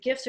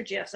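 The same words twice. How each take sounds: First: "gifs" with a hard G, as in gift; "gifs" opening on a hard G. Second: "gifs" with a soft G, like J; "gifs" opening on a J sound. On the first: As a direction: say "gifs" starting with a hard G sound. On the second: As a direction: say "gifs" as if spelt "jifs". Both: Shown as a demonstration. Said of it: "Am I saying that right? Is it gifs or gifs?".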